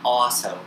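It is said in a British accent.

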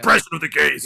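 It is said in a put-on macho voice.

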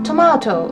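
It is said with a British accent. "トマトっていうのがちょっとイギリス系になるんですけど"

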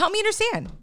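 The tone sounds upset and confrontational. The speaker is annoyed and challenging the other person. The speaker calls it wrong. "you could be really upset"

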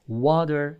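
The word is said with an American accent. "American English, they say water"

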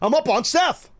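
It is said with passion and excitement.

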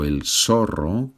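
The z is a voiceless s sound. This is how it is said in Latin America. The speaker calls it right. "como en Latinoamérica"

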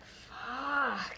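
The word is said in a sensual, sexual tone. It refers to sex. "in like a sexual term, it's like"

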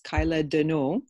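The name is said with a French accent.

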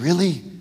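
It is said with a sincere tone.

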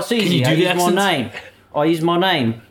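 It is said in a put-on regional accent.

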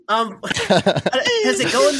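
It is said in an attempted Nigerian accent. "I'm from Nigeria"

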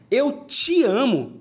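The stress is on te.

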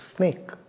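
The word is shouted loudly.

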